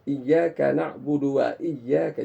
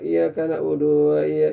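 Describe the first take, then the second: First: The lips move and 'wa' is clearly opened. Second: The lips stay lazy and 'wa' is slurred. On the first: The speaker calls it right. "Wa itu harus buka fathah" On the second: The speaker calls it wrong. "Kalau tidak akan terbaca begini"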